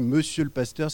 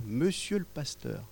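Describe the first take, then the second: First: Said in the usual way. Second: A timid little voice, slow and soft; shy, hesitant and softer; small voice. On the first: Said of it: "quand on me dit". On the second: Retold or imitated. Stranger timidly addressing the pastor, small soft voice. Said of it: "me dit d'une petite voix".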